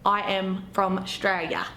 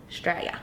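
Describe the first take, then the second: First: Slow drawn-out Australian accent; broad Australian. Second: "Australia" whispered with no voice. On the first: Proud local introducing herself, slow broad Australian accent. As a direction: stretch it out like a true-blue Australian. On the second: Showing the word off to viewers, whispered. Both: Shown as a demonstration. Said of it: "When you say words like Australia".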